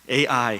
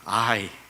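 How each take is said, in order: First: It is said as two letter names, ay-ai. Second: It is said as one word, ah-ee. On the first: It is read like the modern term for artificial intelligence. The speaker calls it wrong. "에이아이로 읽고 싶은 충동이 있는데" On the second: This is the reading the Bible text uses. The speaker calls it right. "성경에서는 I라고 되어 있습니다"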